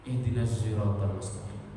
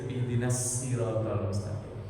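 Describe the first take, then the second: First: The first sound of sirat leans toward z. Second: The first sound of sirat is a plain s. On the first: "Bukan Z Z-nya, tapi belok ke Z" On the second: "Berubahnya menjadi sin"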